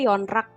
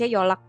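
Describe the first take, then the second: First: The middle consonant is an n sound. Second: The middle consonant is an l sound. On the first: This follows the written spelling. "tulisannya yonrak ya" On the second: This is how the word is actually read. "Tapi dibaca yolak"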